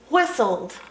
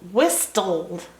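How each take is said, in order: First: The T in the middle is not pronounced. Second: The T in the middle is clearly pronounced. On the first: The speaker calls it right. "Funny T in the middle doesn't get pronounced" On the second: The speaker calls it wrong. "What if I said whistled? No, I can't say it like that?"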